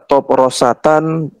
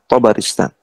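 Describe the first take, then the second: First: Four syllables, starting with an o vowel. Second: Four syllables, starting with an a vowel. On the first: The speaker calls it wrong. "bisa dibaca Toprosatan" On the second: The speaker calls it right. "to-nya di fathah, ba-nya di fathah, ro-nya di kasrah"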